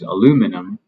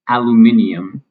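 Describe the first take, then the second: First: The word has no extra syllable. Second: The word has an extra stressed syllable. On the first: "the American pronunciation" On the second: "or an extra syllable, and in this case, it is stressed"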